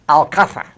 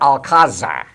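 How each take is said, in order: First: The z is sounded as a th. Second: The z is sounded as a plain z. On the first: This is how it is said in Madrid. "Madrid accent uses this peculiar accent" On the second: This is how it is said in Mexico. "in Mexico, they call it Alcázar"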